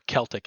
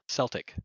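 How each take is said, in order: First: The word is said the Irish way. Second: The word is said the everyday way. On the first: It refers to being Irish. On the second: It names the basketball team.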